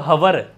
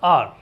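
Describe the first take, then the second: First: It starts with an h sound, two syllables. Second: It has no h, as one long syllable. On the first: The speaker calls it wrong. "हवर थोड़ी" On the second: The speaker calls it right. "ठीक है ना ऐसे"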